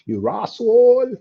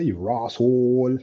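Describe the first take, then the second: First: High, drawn-out mock Bajan; hammed-up high Bajan imitation; Bajan accent. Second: Slow, drawn-out Bajan imitation; lightly put-on Bajan drawl; Bajan accent. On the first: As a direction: exaggerate the Bajan accent, pitched right up. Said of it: "They say that". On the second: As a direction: stretch it out in a mock Bajan accent. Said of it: "what, what they say?".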